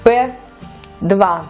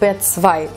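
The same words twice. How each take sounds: First: The name is said without German pronunciation. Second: The name is said with German pronunciation.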